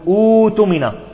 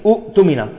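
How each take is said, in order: First: A long u vowel replaces the second glottal stop. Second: A silent glottal stop follows the first vowel. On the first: The speaker calls it right. "نستبدل الهمزة الثانية بالواو" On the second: The speaker calls it wrong. "ولكن لا تبدأ العرب بالهمزة الثانية ساكنة"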